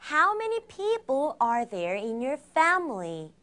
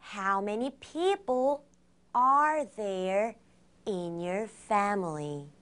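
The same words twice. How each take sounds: First: It is said at a faster pace. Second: It is said at a slower pace.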